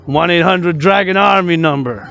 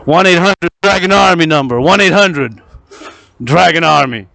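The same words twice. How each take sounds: First: Said in the usual way. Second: Ad announcer. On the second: Acted. Announces hotline like an ad.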